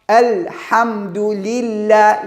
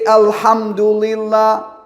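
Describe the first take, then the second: First: The L sound is light and thin. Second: The L sound is heavy and deep. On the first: The speaker calls it right. "Lam is always light" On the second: The speaker calls it wrong. "I don't say alhamdulillah"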